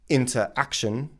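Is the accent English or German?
German. It is said with a German accent. The speaker calls it wrong. "They would say interaction"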